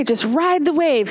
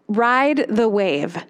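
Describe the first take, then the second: First: Put-on "Just ride the wave." lifted higher and gentle, spoken to a child. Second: "Ride the wave." said slowly, each word weighted; slow key phrase. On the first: Psychologist encouraging a sad kid, gently higher. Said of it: "she uses this with kids a lot". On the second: Shown as a demonstration. Speaker handing listeners a tool, slow and deliberate. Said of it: "this great phrase ... hand to you as a tool".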